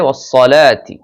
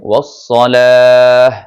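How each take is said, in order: First: The word ends with a full 'ati' ending. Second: The word ends with a short 'ah' sound. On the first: The reading continues into the next words. "মিলিয়ে পড়লে ওয়াস-সালাতি" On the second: The reading stops at this word. "আর থামলে হবে ওয়াস-সালাহ"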